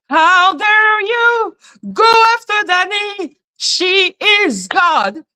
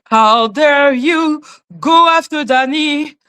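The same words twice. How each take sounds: First: Higher, hammed-up indignation; mock outraged cry; mock outrage. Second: Said in the usual way. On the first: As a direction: overplay the shock.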